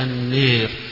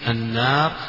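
First: The long vowel is fully fronted toward e. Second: The long vowel is a fully open a. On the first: "وتقرأ بالإمالة" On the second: "تقرأ بالفتح"

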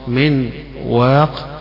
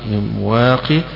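First: The word ends on a bare silent 'q' sound. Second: The word ends with a long 'ee' vowel. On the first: "قراءة الجمهور بالوقف على تسكين القاف" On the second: "وقراءة ابن كثير وقفا من واقي، فاقف عليها بالياء"

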